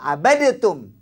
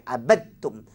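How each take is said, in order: First: An extra vowel splits the two consonants apart. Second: The dead consonant merges straight into the next one. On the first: The speaker calls it wrong. "Yang salah" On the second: The speaker calls it right. "hendaklah dimasukkan ke dalam huruf yang bersabdu"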